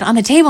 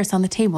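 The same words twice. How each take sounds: First: High, loud rising echo; alarmed question. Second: Said in the usual way. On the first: Acted. Daughter learning where the bug is, alarmed high question. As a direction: repeat it back in startled disbelief. Daughter startled by bug's place.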